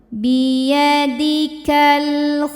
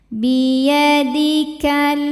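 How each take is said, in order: No difference in how they are said.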